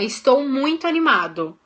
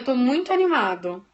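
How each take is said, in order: First: It is said forcefully, with lively energy. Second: It is said flatly, without energy. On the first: The words truly motivate. The speaker calls it right. "tem que colocar tom de voz, hein? Tem que colocar força" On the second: The words do not convince. The speaker calls it wrong. "você pode até falar... Vai funcionar? Não, não vai"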